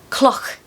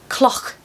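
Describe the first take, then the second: Both takes have the same delivery.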